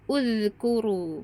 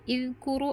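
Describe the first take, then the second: First: The word begins with an u vowel. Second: The word begins with an i vowel. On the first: The speaker calls it right. "hamzah wasolnya dibaca dhammah" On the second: The speaker calls it wrong. "bukan izkuru"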